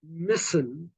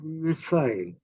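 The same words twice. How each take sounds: First: It is said in an American way. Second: It is said in a non-American way. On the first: "So you say missile" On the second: "instead of missile"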